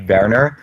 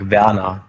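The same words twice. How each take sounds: First: The name is said with a Dutch pronunciation. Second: The name is said with a German pronunciation. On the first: "like Dutch would be Werner" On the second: "if you would go German, it's like Werner"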